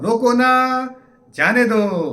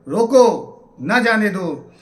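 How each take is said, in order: First: The pause comes right after 'na'. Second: The pause comes right after 'roko'.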